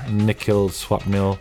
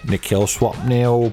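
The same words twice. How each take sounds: First: It is said in his natural voice. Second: It is said in a put-on bloke's voice.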